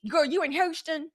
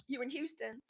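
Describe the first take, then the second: First: "Houston" said as "Hoshton", higher pitched; playful Houston call. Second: Said in the usual way. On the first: Pretend. Host calling to a viewer in Houston, playfully exaggerated.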